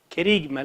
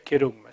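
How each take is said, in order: First: The second vowel is an 'ee' sound. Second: The second vowel is an 'oo' sound. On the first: The speaker calls it wrong. "Querigma le dicen algunos" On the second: The speaker calls it right. "en realidad se debería pronunciar querugma"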